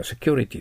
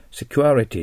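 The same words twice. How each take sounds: First: Security as "se-kyo-ri-ty", without the extra a; security with a simple, merged middle vowel; simplified pronunciation. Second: Security as "se-kyu-a-ri-ty", with an extra a after kyu; security with a full "kyua" middle; dictionary pronunciation. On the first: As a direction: say security with one plain vowel after the k-y. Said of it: "でいいと思います". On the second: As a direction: spell out the diphthong in security as written phonetically. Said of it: "発音記号書いてあります". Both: Shown as a demonstration.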